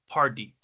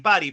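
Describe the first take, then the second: First: It is pronounced with English-style sounds. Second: It is pronounced with Spanish-style sounds. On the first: The speaker calls it right. "In English, it's party" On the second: The speaker calls it wrong. "In Spanish, you say party"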